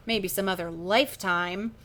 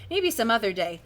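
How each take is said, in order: First: Slow, deadpan put-down; dry punchline. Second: Said in the usual way. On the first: Acted. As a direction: let the joke land slowly. Drawn-out punchline of the brush-off.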